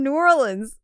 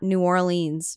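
First: It is said with the local pronunciation. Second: It is said with a non-local pronunciation. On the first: The speaker calls it right. "I tried to say it the way I think New Orleans people like to say it" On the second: The speaker calls it wrong. "which is not New Orleans"

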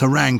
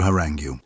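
First: The word ends in a plain 'ng' sound. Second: The word ends with an added 'gyoo' sound. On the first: This is the form borrowed from French. "Why has harangue come along" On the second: This is the form spelling rules like ague would suggest. "as opposed to harangue"

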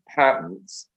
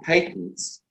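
First: It is said in an American accent. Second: It is said in a non-American accent.

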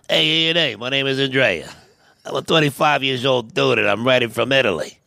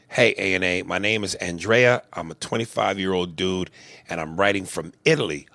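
First: It is read in a Tony Soprano voice. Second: It is read in his normal voice.

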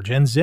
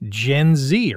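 First: The letter Z is said the Canadian way. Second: The letter Z is said the American way.

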